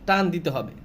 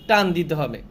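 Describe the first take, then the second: No difference in how they are said.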